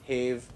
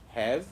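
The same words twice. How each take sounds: First: The vowel sounds like the one in cave. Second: The vowel does not sound like cave. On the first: The speaker calls it wrong. "it is not like that" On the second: The speaker calls it right. "These are are, have"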